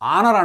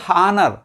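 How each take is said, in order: First: The word begins directly with a vowel sound. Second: The word begins with an audible h sound. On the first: The speaker calls it right. "ఆనర్ అంటాం" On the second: The speaker calls it wrong. "Not హానర్, హా use చేయం"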